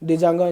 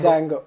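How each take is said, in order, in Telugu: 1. ఇది పలికే D శబ్దంతో మొదలవుతుంది. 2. ఇది D శబ్దం లేకుండా మొదలవుతుంది. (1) "డిజాంగో కాదురా" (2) "డీ సైలెంట్"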